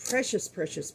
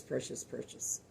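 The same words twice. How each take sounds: First: Said in the usual way. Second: "precious, precious" whispered, fading to a hush. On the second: Real, not acted. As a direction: let the repeated "precious" die away in a whisper. Repeats word, then whispers it.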